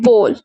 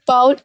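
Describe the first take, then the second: First: The vowel sounds like the one in go. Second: The vowel sounds like the one in cow. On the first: The speaker calls it right. "इसकी correct pronunciation है बोल" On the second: The speaker calls it wrong. "बाउल जो है wrong pronunciation है"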